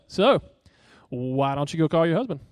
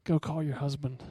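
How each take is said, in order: First: A touch of smug sarcasm; lightly voiced smug mock question; arrogant Jesus. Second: Softer, gentle command; grieving, broken. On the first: Preacher voices his wrong reading of Jesus, mildly smug. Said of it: "with this arrogant undertone". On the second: Retold or imitated. Jesus gently speaks to the woman at the well, soft and grieving. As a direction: say it tenderly, heart breaking for her. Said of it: "He is broken for her right then".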